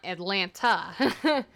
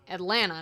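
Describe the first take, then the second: First: The name is said the outsider way. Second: The name is said the local Atlanta way. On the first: The speaker is not from Atlanta. "not Atlanta" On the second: The speaker is from Atlanta. "You know I'm from Atlanta because I say Atlanta"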